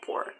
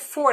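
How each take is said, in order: First: The word begins with a P sound. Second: The word begins with an F sound. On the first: "they would say poor" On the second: "when they're gonna say four"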